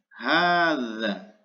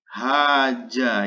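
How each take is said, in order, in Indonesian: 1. Huruf tengahnya bunyi 'th'. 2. Huruf tengahnya bunyi 'j'. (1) "Yang benar adalah hadza" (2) "ini salah ya"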